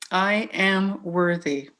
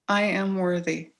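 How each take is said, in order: First: It sounds convinced and sincere. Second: It sounds unconvinced and half-hearted.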